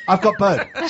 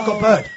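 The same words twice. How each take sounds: First: Put-on laughing hammy pirate accent, loud and high. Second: Hammed-up pirate accent, loud and high. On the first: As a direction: cackle it out like a pirate. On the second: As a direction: shout it like a pirate. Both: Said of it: "Talk Like a Pirate Day".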